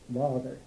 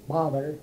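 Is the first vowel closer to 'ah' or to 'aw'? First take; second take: aw; ah. First: The first vowel leans toward an 'aw' sound. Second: The first vowel is an open 'ah' sound. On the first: "The British come farther toward the aw sound" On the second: "Bother would be the American"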